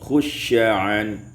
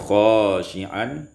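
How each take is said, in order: First: The first vowel is a short u sound. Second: The first vowel is a long a sound.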